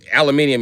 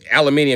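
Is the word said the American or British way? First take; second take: British; British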